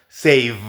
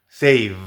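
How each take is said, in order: No difference in how they are said.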